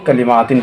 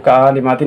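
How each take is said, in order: First: कलिमातिन starting on a short ka; correct short vowel. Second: कालिमातिन with stretched first kaa; wrong long vowel. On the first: Teacher giving the proper reading, कलिमातिन with short ka. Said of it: "कलिमातिन पढ़ना है". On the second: Teacher rejecting the children's reading, कालिमातिन with long kaa. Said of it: "तो कालिमातिन नहीं सही". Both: Shown as a demonstration.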